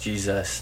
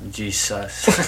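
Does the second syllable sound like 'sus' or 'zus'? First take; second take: zus; sus. First: The second syllable sounds like 'zus'. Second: The second syllable sounds like 'sus'. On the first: The speaker calls it right. "But it's pronounced Jesus" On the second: The speaker calls it wrong. "not Jesus"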